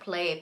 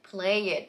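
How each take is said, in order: First: The word is said as one syllable. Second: The word is said with an added second syllable.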